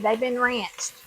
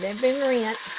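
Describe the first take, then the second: First: It is said in a country accent. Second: It is said in a plain accent.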